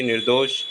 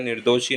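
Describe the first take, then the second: First: निर्दोष as "nir-dosh"; correct clean ending. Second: निर्दोषी as "nir-do-shee"; wrong i ending. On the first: Teacher correcting it, निर्दोष ending on "sh". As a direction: stop निर्दोष on sh, no vowel. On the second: Teacher showing the error, निर्दोषी with final "ee". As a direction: end निर्दोषी on a long ee. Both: Shown as a demonstration. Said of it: "निर्दोष होता है".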